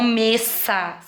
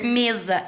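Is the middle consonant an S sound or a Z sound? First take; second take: S; Z. First: The middle consonant is a hissing S sound. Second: The middle consonant is a buzzing Z sound. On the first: The speaker calls it wrong. "e não messa" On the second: The speaker calls it right. "ele vai ser o som de Z"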